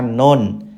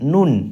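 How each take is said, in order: First: The vowel is a more open o sound. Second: The vowel is a close, rounded u sound. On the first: The speaker calls it wrong. "Miring itu contohnya dibaca non" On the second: The speaker calls it right. "namanya N-U-N, nun"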